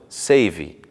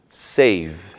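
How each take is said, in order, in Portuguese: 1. Uma vogal extra 'ee' segue a consoante final. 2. A palavra termina no som da consoante final. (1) "e não" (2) "Não se pronuncia o som do I no final"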